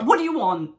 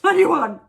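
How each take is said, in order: First: Loud, higher, irritated snap back; raised-voice, stroppy demand; retold shitty retort. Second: Much louder, much higher yell, hammed-up; big mock shout after a laugh; shouted shitty retort. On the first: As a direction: re-enact an exasperated comeback. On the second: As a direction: re-enact the retort as an exasperated yell. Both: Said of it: "really shitty".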